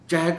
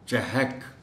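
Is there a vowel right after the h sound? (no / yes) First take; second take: no; yes. First: No vowel follows the h sound. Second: A short a vowel follows the h sound. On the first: The speaker calls it wrong. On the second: The speaker calls it right.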